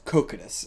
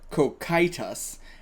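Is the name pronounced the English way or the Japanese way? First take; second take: Japanese; English. First: The name is pronounced the Japanese way. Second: The name is pronounced the English way. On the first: "In Japanese, it's Cocytus" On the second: "So in English, it's Cocytus"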